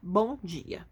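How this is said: It is said flatly, ending the topic.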